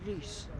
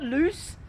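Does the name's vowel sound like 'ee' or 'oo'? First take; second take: ee; oo. First: The vowel sounds like 'ee' with rounded lips. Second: The vowel sounds like 'oo'. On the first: The speaker calls it right. "you say it with a kind of an Instagram duck face" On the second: The speaker calls it wrong. "It's not loose"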